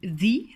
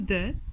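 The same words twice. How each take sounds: First: The word ends in a full 'ee' vowel. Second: The word ends in a short 'uh' vowel. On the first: It comes before a word starting with a vowel. "selon s'il est suivi comme dans le cas précis d'une voyelle" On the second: It comes before a word starting with a consonant. "comme dans la page d'à côté"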